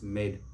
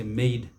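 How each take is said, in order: First: Maid short and softer, "mayd"; correct pronunciation. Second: Maid drawn out, "may-eed"; mispronunciation. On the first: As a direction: keep maid to one short syllable. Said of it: "it's maid". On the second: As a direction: stretch the vowel in maid. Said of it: "We don't say maid". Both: Shown as a demonstration.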